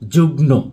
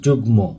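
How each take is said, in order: First: The cluster is sounded with an n. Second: The cluster is sounded with an m. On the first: The speaker calls it wrong. "এই শব্দটির উচ্চারণ আমরা করে থাকি যুগ্ন" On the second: The speaker calls it right. "প্রকৃতপক্ষে এই শব্দ দুটির উচ্চারণ হবে সম্মান এবং যুগ্ম"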